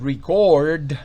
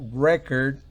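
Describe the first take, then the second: First: The stress is on the second syllable. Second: The stress is on the first syllable. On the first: It is a verb meaning to register. "significa registrar" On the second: It is a noun meaning a register. "significa registro o disco"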